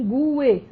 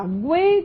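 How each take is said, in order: First: Gue split in two, GU-e; hiatus, stressed U. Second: Gue said as one syllable, gwe; U as glide. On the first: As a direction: stress the U in gue, then a separate e. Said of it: "você tem aqui um hiato". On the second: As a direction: sound the U in gue as a quick w. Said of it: "você tem pronúncia do U". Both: Shown as a demonstration.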